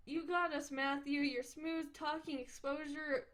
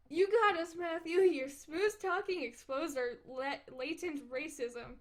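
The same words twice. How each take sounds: First: Said in the usual way. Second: Louder, grander retake of the line; hammed-up dramatic declaration; mock dramatic. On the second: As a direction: boom it out like a movie trailer. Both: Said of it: "ex-, what?".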